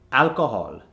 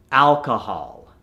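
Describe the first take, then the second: First: Alcohol with a rounded "o" at the end; Indian accent. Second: Alcohol slowed, ending in open "hahl"; American accent. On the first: Coach gives the word to convert, Indian accent. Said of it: "from the Indian accent". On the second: Coach gives the converted word, American accent. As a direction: say "alcohol" American, last vowel "ah". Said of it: "to the American accent". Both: Shown as a demonstration.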